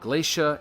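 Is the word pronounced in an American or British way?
American. The word is said with an American pronunciation. "in America you say"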